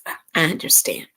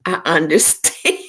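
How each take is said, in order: First: Soft voiceless "I understand"; whispered understanding. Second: Said in the usual way. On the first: Real, not acted. Host sympathizing with a viewer's comment in a whisper. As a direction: breathe "I understand" almost silently.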